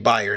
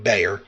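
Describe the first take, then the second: First: The name is said like the word buyer. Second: The name is said the way it is spelled. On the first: The speaker calls it right. "it's supposed to be Bayer" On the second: The speaker calls it wrong. "not Bayer"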